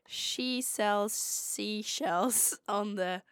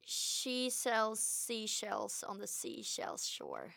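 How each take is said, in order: First: Slow, careful American accent. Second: Drawn-out tongue twister, half speed; slow recital. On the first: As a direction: draw it out in an imitated American accent. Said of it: "I will say it in American". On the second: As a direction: say the tongue twister slowly and carefully. Tongue twister given to copy. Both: Shown as a demonstration.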